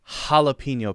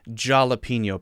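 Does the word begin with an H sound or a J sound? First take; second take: H sound; J sound. First: The word begins with an H sound. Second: The word begins with a J sound. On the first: The speaker calls it right. "It's spelled with a J, but we say ha" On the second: The speaker calls it wrong. "not a jalapeno pepper"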